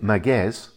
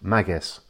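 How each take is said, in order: First: The stress is on the second syllable. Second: The stress is on the first syllable. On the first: The speaker calls it wrong. "instead of being Magues, as a lot of people say" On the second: The speaker calls it right. "you put the emphasis on the first syllable"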